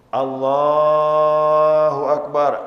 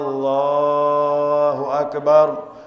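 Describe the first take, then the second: First: The first vowel of Allahu is short. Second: The first vowel of Allahu is drawn out long. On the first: The speaker calls it right. "Alifnya pendek" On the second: The speaker calls it wrong. "Yang batal. ... Alifnya panjang"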